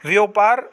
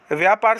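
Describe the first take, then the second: First: व्यापार as "vyo-paar"; wrong o vowel. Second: व्यापार as "vyaa-paar"; correct long a. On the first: Teacher showing students the mistake, vowel changed. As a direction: put an o in the first syllable of व्यापार. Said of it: "गलत होगा". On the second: Teacher giving students the right form, long a. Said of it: "सही होगा". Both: Shown as a demonstration.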